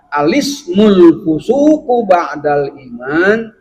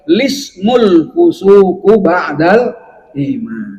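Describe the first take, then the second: First: It begins with 'a' before 'lismul'. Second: It begins directly with 'lismul', without 'a'. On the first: This is the first allowed way to start the phrase. "cara ibtidah atau mulai dari kata al-ismu boleh dengan cara" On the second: This is the second allowed way to start the phrase. "Yang kedua boleh"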